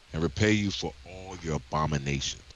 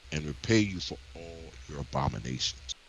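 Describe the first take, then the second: The two takes are said the same way.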